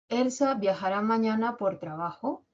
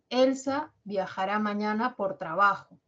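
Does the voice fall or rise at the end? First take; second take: rise; fall. First: The voice rises at the end. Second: The voice falls at the end. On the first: It is a yes-no question. "Esa última o es como un gallito" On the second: It is a statement giving information. "mi entonación se va a caracterizar por tener un tono descendente"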